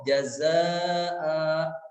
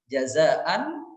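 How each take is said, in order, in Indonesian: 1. Kata ini berakhir dengan vokal a panjang. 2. Kata ini berakhir dengan bunyi n yang terdengar jelas. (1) "ketika dibaca waqaf" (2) "ketika dibaca wasol seperti ada nun sukunnya"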